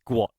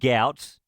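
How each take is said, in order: First: The name starts 'gw' and rhymes with 'hot'. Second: The name rhymes with 'out'. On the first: The speaker calls it right. "it's gwot" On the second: The speaker calls it wrong. "instead of gout"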